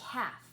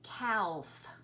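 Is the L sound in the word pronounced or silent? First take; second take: silent; pronounced. First: The L sound is silent in the word. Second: The L sound is pronounced in the word. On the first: The speaker calls it right. "The way we pronounce it is calf" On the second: The speaker calls it wrong. "It looks like it would say calf"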